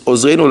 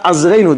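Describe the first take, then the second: First: The first vowel is an 'oh' sound. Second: The first vowel is an 'ah' sound. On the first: The speaker calls it right. "It's Ozreinu" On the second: The speaker calls it wrong. "not Azreinu"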